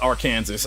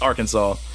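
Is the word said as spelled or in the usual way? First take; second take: as spelled; usual way. First: The word is said just as it is spelled. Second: The word is said the usual, not-spelled way. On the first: "when you read it like this" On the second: "It's Arkansas"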